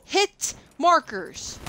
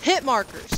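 First: Drawn out slowly. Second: Said in the usual way. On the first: Real, not acted. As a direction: hit markers dragged out slow. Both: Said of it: "Number one thing that can piss anybody off".

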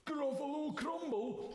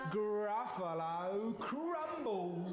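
First: "Gruffalo Crumble" high and quicker, in alarm; horrified Gruffalo. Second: "Gruffalo Crumble" slow and drawn out; menacing relish. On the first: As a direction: yelp "Gruffalo Crumble" in horror. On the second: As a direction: savour "Gruffalo Crumble", stretching each word. Mouse threatens the Gruffalo. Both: Acted.

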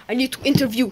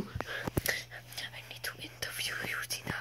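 First: Said out loud and forceful; loud announcement. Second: Whisper. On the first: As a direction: announce it loudly to the others. Same words repeated, louder take. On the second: Same words repeated in a whisper. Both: Pretend.

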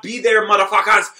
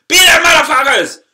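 First: Said in the usual way. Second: Higher and louder, yelling it out; shouted sign-off. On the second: Real, not acted. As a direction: blast the sign-off at the crowd. Outro sign-off repeated louder.

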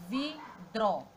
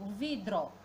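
First: "vidro" broken in two, vi-dro; sílaba por sílaba. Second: Said in the usual way. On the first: Shown as a demonstration. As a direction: pause between the syllables of "vidro". ("vidro" separado em sílabas: vi-dro) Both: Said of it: "Já separando a sílaba".

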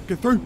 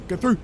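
Both takes have the same delivery.

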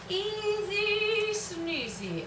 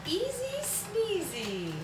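First: High, slow sung little tune. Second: High, slow singsong. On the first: Making coffee for viewers, high slow sung tune. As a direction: croon it to yourself. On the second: Making coffee for viewers, high slow singsong. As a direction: say it like a cutesy rhyme. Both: Pretend.

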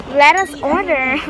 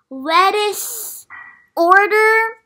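First: Said in the usual way. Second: Lettuce order said as rising question, order loud and high; pun emphasis. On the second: Real, not acted. Repeating the pun to the camera, Lettuce order rising loud.

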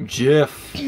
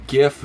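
First: "gif" said as jif, soft g; soft-g pronunciation. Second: "gif" with a hard g, as in gift; hard-g pronunciation. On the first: Player explains one side of the argument, "gif" as jif. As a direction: say "gif" starting with a j sound. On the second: Player explains the other side, "gif" with hard g. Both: Shown as a demonstration. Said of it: "gif versus gif".

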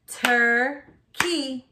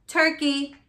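First: "Turkey" split as tur, key with a gap; chopped into syllables. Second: Said in the usual way. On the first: Shown as a demonstration. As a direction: chop "Turkey" into two slow beats. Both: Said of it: "chop it out".

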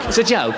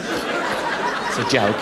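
First: Said in the usual way. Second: Soft, slow, whispered; a slow whispered throwaway to himself; breathy aside. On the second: Acted. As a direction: mutter it under a laugh, slowly.

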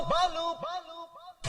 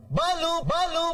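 First: The same long Balu call dying away to nothing; man calling for Balu as his voice fades out; fading call. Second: Man calling out for Balu, drawn-out call; slow drawn-out call. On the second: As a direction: stretch each Balu long and high. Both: Acted.

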